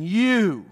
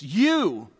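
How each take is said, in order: First: You hit hard, higher and louder; pulpit-pounding you. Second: You stressed, a little louder; emphatic you. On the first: Pretend. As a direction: slam the word You like a fist on the pulpit. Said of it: "like he's pounding the pulpit and saying". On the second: Shown as a demonstration. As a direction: lean on You, raised slightly. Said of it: "it's just an emphatic emphasis".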